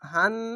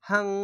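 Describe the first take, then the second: First: It ends with a clearly pronounced n sound. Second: It ends with a nasal hum, no clear n. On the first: The speaker calls it wrong. "নুন উচ্চারণ হচ্ছে এখানে নুন উচ্চারণ হবে না" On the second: The speaker calls it right. "Bangla অনেস্কারের মতো"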